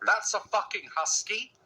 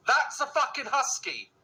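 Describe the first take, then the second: First: HUSKY rising in disbelief; incredulous question. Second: THAT'S high, slow fall to husky; slow, high, outraged repeat starting on That's; emphatic disbelief. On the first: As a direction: ask it in disbelief, lifting at husky. Incredulous reaction to the clip. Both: Real, not acted.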